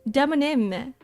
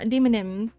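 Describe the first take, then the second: First: The word is split as demo plus nym. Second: The word is split as demon plus ym. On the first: The speaker calls it right. "Demonym, not demonym" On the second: The speaker calls it wrong. "not demonym"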